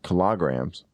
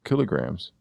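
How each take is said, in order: First: Kilograms as kuh-LAH-grams; slow kilograms, stress moved onto LAH; shifted stress. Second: Kilograms as KIL-uh-grams; kilograms, short i and weak middle syllable; stress on first syllable. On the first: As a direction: kilograms mispronounced to rhyme its start with kilometers. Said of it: "not kilograms". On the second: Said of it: "but I do say kilograms". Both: Shown as a demonstration.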